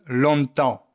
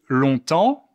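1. C'est prononcé avec un accent du sud de Marseille. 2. C'est prononcé avec un accent français standard. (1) "les Marseillais disent" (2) "moi je dis"

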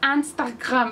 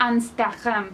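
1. Se dice con pronunciación francesa. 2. Se dice con pronunciación francesa.

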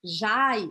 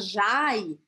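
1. A vogal desliza como 'ai'. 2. A vogal desliza como 'ai'.

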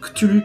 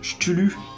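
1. Le mot commence par un 'k' dur. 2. Le mot commence par un son 'sh' doux. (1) "ça se dit bien Cthulhu, parce qu'il n'y a pas de H après le C" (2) "il y en a qui disent Cthulhu"

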